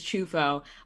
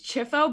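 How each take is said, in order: First: The first vowel sounds like 'oo'. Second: The first vowel sounds like 'ee'. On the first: This is how the name is said in Italy. "the real pronunciation is Chufo" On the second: This is how the family says the name. "my family said Chifo"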